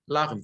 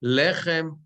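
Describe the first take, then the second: First: "lachem" with an ah first vowel, LAH-chem; changed pausal vowel. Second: "Lechem" with an eh first vowel, LEH-chem; unchanged vowel. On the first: Teacher showing the sentence-end form, "lachem" with ah. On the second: Teacher showing the normal word form, "Lechem" with eh. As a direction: say "Lechem" with a short e. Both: Shown as a demonstration. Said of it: "Sometimes the vowels change".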